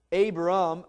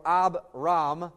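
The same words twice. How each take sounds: First: Said in the usual way. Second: Abram said slowly as ah-BRAHM, both syllables drawn out; Hebrew-style Abram. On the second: Shown as a demonstration. Preacher shows the congregation the name's two syllables, slow and drawn out. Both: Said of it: "the two syllables are there".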